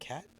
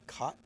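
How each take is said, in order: First: The name rhymes with cat. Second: The name rhymes with cot. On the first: The speaker calls it wrong. "not cat" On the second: The speaker calls it right. "I believe that's how you pronounce it"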